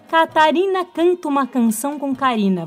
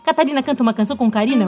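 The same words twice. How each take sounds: First: The sentence is said at a normal pace. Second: The sentence is said very fast.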